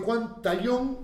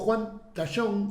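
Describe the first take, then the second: First: The name is said with a non-Uruguayan pronunciation. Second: The name is said with a Uruguayan pronunciation.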